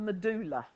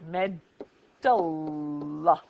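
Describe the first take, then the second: First: The middle vowel is a long oo sound. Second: The middle vowel is a short uh sound. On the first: The speaker calls it wrong. "there's a tendency for people to call it the medulla" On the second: The speaker calls it right. "here it's uh instead of oo"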